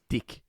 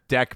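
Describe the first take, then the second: First: The vowel is raised toward a short i sound. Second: The vowel is the ordinary short e sound.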